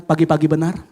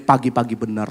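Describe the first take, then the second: First: "Pagi-pagi benar" said as a call with a small rise on "pagi-pagi"; call for the crowd to repeat. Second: Said in the usual way. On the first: Shown as a demonstration. Preacher calls the congregation to echo "Pagi-pagi benar", leading. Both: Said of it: "Sama-sama katakan".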